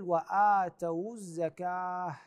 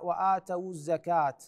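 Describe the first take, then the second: First: The last word ends with an h sound. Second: The last word ends with a t sound. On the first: The speaker calls it right. "تبدل إلى هاء، فنقول وآتوا الزكاة" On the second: The speaker calls it wrong. "ما نقراها وآتوا الزكاة بلفظ حرف التاء"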